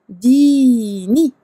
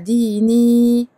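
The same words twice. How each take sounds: First: The vowel after the first consonant is held long. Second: The final vowel after the second consonant is held long. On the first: The speaker calls it right. "les deux temps sont sur le dal" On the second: The speaker calls it wrong. "Et non pas dini. Non, ... Il n'y a pas de prolongation après le noun"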